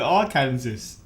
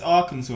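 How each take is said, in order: First: The word ends sounding like the word Kansas. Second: The word ends not sounding like Kansas. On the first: The speaker calls it wrong. "Do people accidentally call it Arkansas?" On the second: The speaker calls it right. "I've always known it's Arkansas"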